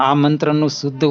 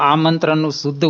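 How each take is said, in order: No difference in how they are said.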